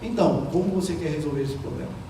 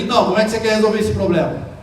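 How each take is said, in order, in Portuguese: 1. A voz está mais baixa e soa calma. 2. A voz está elevada e soa arrogante. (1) "com um tom de voz um pouco abaixo" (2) "elevo o meu tom de voz, coloco uma certa arrogância na voz"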